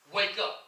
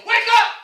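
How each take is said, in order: First: Said in the usual way. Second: High, very loud wake-up call; emphatic shout. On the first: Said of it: "He didn't just say it once". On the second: Acted. Preacher voicing God's warning to Zion, emphatic high shout. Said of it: "with some emphasis on it".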